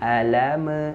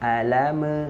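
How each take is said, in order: Both takes have the same delivery.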